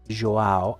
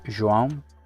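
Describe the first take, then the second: First: The name ends in a plain, non-nasal vowel. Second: The name ends with a nasal, M-like sound. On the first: The speaker calls it wrong. "I also know that it's not pronounced like that" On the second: The speaker calls it right. "Like sort of like an M towards the end?"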